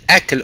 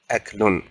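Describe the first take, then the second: First: The word ends on a bare consonant. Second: The word ends with an added -un sound. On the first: This is the form used when stopping on the word. "they don't end with a uh, yes a moving letter" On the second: Learners may say it this way to learn the ending. "you can go ahead and pronounce the last haraka you end with"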